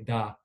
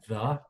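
First: The word starts with a hard 'd' sound. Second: The word starts with a soft 'th' sound. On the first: "you want to say da" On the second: "you don't say like the"

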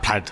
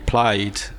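First: The word has its English pronunciation. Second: The word has its Welsh pronunciation. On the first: It names a kind of checked cloth. "a word that was awkward to say, quite unpleasant" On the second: It means party. "Welsh is obviously Welsh for party"

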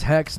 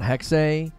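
First: The word ends without a final vowel sound. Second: The word ends with a final vowel sound. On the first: "I thought it was Hex" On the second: "The final E is being pronounced"

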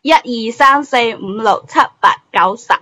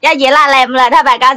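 First: It is counted in standard Cantonese. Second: It is counted in a local rural dialect.

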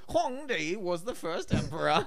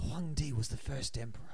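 First: It is said in an exaggerated put-on accent. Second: It is said in the speaker's ordinary voice.

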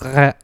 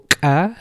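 First: The consonant is softened, almost a fricative. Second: The consonant is a forceful, sharp ejective stop. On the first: "Sometimes it sort of almost becomes a fricative" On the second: "this forceful kah"

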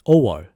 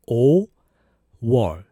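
First: The word is said quickly and smoothly. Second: The word is said slowly and carefully.

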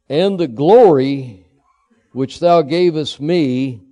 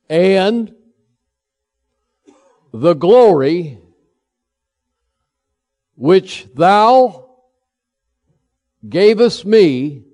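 First: It is read at a normal pace. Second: It is read slowly.

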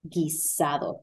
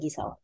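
First: The D sound is clearly pronounced. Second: The D is dropped, Puerto Rican style.

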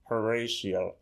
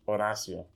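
First: The name has an English pronunciation. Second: The name has a Spanish pronunciation. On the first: The speaker calls it wrong. "a lot of people say Horatio" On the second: The speaker calls it right. "That's how you say it in Spanish"

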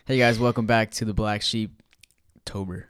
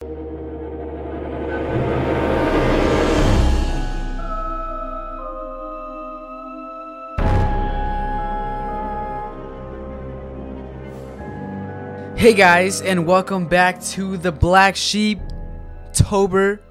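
First: It is said with calmer, moderate energy. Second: It is said with very high excitement.

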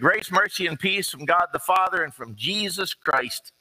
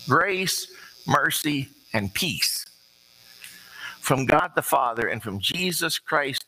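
First: The words are read quickly. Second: The words are read more slowly. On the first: The speaker calls it wrong. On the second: The speaker calls it right.

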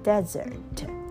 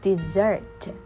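First: The stress is on the first syllable. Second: The stress is on the second syllable. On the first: A dry, sandy area. "desert 就是沙漠" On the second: To abandon someone. "desert 就是抛弃"

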